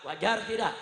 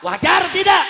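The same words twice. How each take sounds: First: Said in the usual way. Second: High, full-force shout to the crowd; rallying shout. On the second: Real, not acted. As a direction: belt out the question to rouse them. Rousing the crowd, repeated louder. (teriakan lantang membakar massa)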